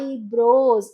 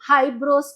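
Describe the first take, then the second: First: The word starts directly with a vowel. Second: The word starts with an h sound. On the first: The speaker calls it right. "ఐబ్రోస్ అని అనాలని" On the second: The speaker calls it wrong. "హైబ్రోస్ కాదు"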